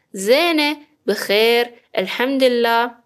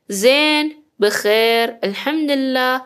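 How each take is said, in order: Both takes have the same delivery.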